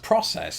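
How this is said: The word is said with an American pronunciation. "I pronounced the word process as process"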